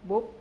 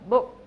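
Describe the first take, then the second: First: The final consonant is cut off short. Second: The final consonant is clearly released. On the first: The speaker calls it wrong. "họ thường phát âm rất cụt" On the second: The speaker calls it right. "thay vì phải phát âm là book"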